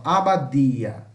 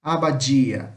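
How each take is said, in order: First: "Abadia" slow, with a hard D before the I, "dee-a"; Spanish hard D. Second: "abadia" with the D softened to "dji"; Portuguese hissed D. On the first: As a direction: draw out "Abadia", tongue-tip D with no hiss. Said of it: "veja a diferença". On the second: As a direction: say "abadia" as "a-ba-JEE-a", Brazilian style. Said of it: "como se tivesse um som de sh". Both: Shown as a demonstration.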